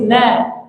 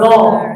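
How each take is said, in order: First: The vowel is thin and open, like a. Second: The vowel is thick and rounded, like o. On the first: The speaker calls it right. "Nunnya tipis na" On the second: The speaker calls it wrong. "Jangan no"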